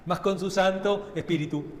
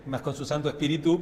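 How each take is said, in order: First: "santo" hit as the strongest word, "espíritu" said normally with a falling end; stress on santo. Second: "espíritu" sung with the weight moved to the end, espiritú, rising; stress on the last syllable. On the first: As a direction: lean on "santo", let "espíritu" drop. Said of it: "no pega". (acento fuerte en "santo", "espíritu" normal y cayendo) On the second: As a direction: land on the final syllable of "espíritu" like the song does. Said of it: "Le ponemos el acento en otro lado". (acento en la última sílaba de "espíritu", subiendo) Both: Shown as a demonstration.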